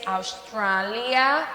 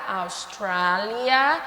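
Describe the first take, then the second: First: Austrália said slowly with a rising end; slow model. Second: Austrália again slowly with a rising end; slow repeat. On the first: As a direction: drill Austrália slowly for students. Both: Shown as a demonstration. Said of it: "Austrália em inglês".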